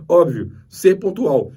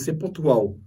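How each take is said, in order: First: Slow, louder, stressing "ser pontual"; emphatic repeat. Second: Said in the usual way. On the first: Shown as a demonstration. Teacher hammering home "ser pontual" to the class. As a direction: lean hard on "Óbvio, ser pontual". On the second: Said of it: "Primeira coisa".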